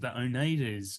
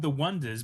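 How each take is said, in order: First: The name starts with an 'oh' sound. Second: The name starts with a 'w' sound. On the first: Someone read the name the way it is spelled. The speaker calls it wrong. "someone pronounced it the Oneidas because that's the way it's spelled" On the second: This is what the band is actually called. The speaker calls it right. "The band is called The Wonders"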